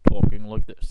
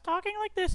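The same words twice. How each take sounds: First: It is said in a low voice. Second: It is said in a high voice.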